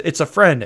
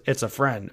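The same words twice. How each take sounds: First: A touch of alarm, raised louder; imitating Niobe with a hint of urgency; mock Niobe line. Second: Softer, settled repeat of the line; mock Niobe, turned calm. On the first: Critic mocks Niobe's line, faintly urgent. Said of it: "she says". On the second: Critic mocks Niobe's sudden calm, softly. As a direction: imitate her suddenly calm and friendly. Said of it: "turns around immediately and says".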